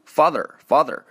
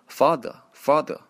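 First: It is said with an American accent. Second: It is said with a British accent. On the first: "美国人会读，把后面的儿化音还是比较强啊" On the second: "但是英国人会读成father"

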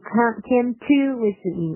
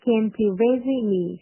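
First: The word to is said fully and heavily. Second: The word to is weak and reduced. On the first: The speaker calls it wrong. "你不要读成came to visit me 哈，读那么重" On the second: The speaker calls it right. "后面这个to 是做一个弱读的"

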